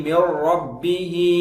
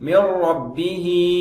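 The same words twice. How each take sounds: No difference in how they are said.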